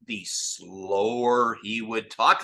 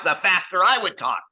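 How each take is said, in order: First: Slowed right down; slow talk. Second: Higher and louder, quick and eager; fast talk. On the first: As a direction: drag the words out slowly. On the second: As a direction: rattle it off with energy. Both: Shown as a demonstration. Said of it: "it was so funny because".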